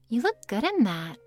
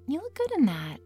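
First: The tone sounds plain and unfriendly. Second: The tone sounds sweeter and nicer.

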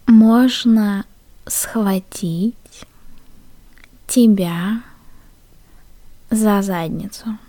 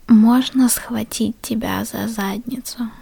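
First: The phrase is spoken at a slow pace. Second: The phrase is spoken at a normal pace.

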